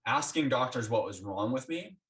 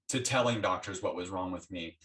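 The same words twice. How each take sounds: First: Asking lifted, rising at the end; stress on asking. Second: Telling pressed firmly, lower, falling; stress on telling. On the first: Telling the listener how she changed, stress on asking. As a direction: lean on the word asking, set up the contrast. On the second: Answering her own earlier line, stress on telling. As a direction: land the word telling to finish the contrast. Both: Real, not acted.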